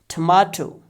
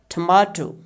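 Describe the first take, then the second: No difference in how they are said.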